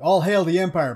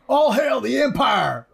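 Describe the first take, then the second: First: It is said with a mild, ordinary accent. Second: It is said louder with a strong accent. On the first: The character is sober and calm. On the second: The character is drunk and excited.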